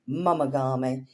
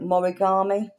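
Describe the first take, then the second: First: The middle of the word sounds like 'ma'. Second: The middle of the word sounds like 'ri'. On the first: The speaker calls it right. "It's mumagami" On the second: The speaker calls it wrong. "That's wrong. Completely wrong"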